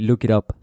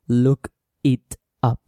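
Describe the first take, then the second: First: The words link, and the T sounds like R. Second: Each word is said separately, without linking. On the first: "if you've got an American accent, it's simpler and more comfortable to say look it up, with an R" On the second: "So you don't say"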